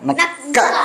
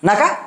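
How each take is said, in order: First: The k sound is held and doubled. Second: The k sound is short and single. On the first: The speaker calls it right. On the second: The speaker calls it wrong.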